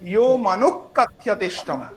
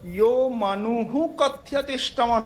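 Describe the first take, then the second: First: The visarga is sounded as a k before kathyate. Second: The visarga is sounded as an h before kathyate. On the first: The speaker calls it right. "ক আর খ এর মধ্যবর্তী উচ্চারণে" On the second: The speaker calls it wrong. "নয়"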